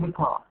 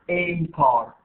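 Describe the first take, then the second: First: The article 'a' is weak and unstressed. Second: The article 'a' is fully stressed. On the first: The speaker calls it right. "كتير مخففة. There is no stress" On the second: The speaker calls it wrong. "I'm not saying"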